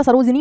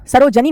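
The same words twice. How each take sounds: First: सरोजिनी with short 'i' after ज, "saro-ji-nee"; correct pronunciation. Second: सरोजनी with short 'a' after ज, "saro-ja-nee"; wrong pronunciation. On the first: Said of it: "सरोजिनी होता है". (सरोजिनी में 'जि' पर छोटी इ) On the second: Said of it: "सरोजनी नहीं होता". (सरोजनी में 'ज' पर 'अ' की ध्वनि) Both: Shown as a demonstration.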